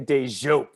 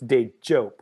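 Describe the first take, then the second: First: The consonant is a soft 'zh' sound. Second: The consonant is a hard 'j' sound. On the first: The speaker calls it wrong. "They want to like turn it into like a Z H or something" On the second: The speaker calls it right. "it's hard J like jump"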